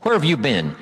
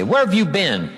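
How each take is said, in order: First: Loaded demo. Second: Loaded sarcasm. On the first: Shown as a demonstration. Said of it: "See, that's loaded with "you don't care". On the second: Retold or imitated. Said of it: "See, that's loaded".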